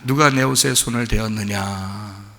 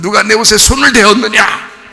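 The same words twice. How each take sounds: First: It is said in a gentle, loving tone. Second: It is said in a harsh, frightening tone.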